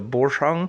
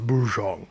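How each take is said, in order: First: The name is said with an ordinary English accent. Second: The name is said with a deeper German accent.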